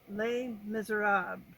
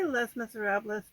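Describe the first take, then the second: First: The title is pronounced with French-style sounds. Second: The title is pronounced with Spanish-style sounds. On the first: "the way to say it is Les" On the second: "that's how you would pronounce it if you were speaking Spanish"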